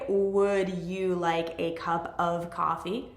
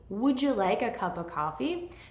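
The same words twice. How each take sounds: First: The word 'of' is said fully with its v. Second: The word 'of' is reduced to a short 'uh'. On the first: The speaker calls it wrong. "We don't say" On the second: The speaker calls it right. "We say uh"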